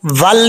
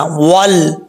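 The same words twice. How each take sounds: First: Said in the usual way. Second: वल said with the lips rounded; rounded vav. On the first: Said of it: "वल नहीं पढ़ना". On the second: Shown as a demonstration. Teacher demonstrating the right वल, rounded lips. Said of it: "होंठ गोल करेंगे".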